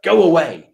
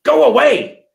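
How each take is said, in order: First: Imitated send-off, only moderately raised; milder dismissal. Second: High, louder mock outburst; exasperated dismissal. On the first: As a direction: shoo them off without real harshness. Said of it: "It was like". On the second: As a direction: imitate a boss sending someone packing loudly. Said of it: "It wasn't hard".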